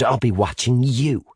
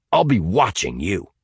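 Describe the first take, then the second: First: YOU leaned on as a retort; stress on YOU. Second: Deliberate warning to an enemy. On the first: Sinead returning Hamilton's warning, stressing YOU. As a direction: throw it back, weight on YOU. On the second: Hamilton pointing at Sinead, warning. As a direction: put them on notice, firmly. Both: A narrator's reading.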